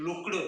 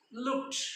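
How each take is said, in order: First: "looked" ending in a voiced D after the K; wrong D ending. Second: "looked" ending in a crisp unvoiced T; correct T ending. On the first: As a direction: demonstrate "looked" wrongly as look-d. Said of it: "We cannot pronounce". ("looked" च्या शेवटी ट ऐवजी ड) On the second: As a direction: say "looked" with -ed as T, not D. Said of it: "ED ऐवजी आपण ट असा उच्चार करतो". ("looked" च्या शेवटी ड नाही, ट) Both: Shown as a demonstration.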